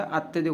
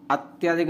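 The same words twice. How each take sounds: First: अत्यधिक with short त्य; correct pronunciation. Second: अत्यधिक with long आ after त्य; wrong pronunciation. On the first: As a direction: keep the middle vowel of अत्यधिक short. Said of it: "अत्यधिक होता है". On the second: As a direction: stretch the middle to अत्या-धिक. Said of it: "अत्यधिक नहीं होता". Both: Shown as a demonstration.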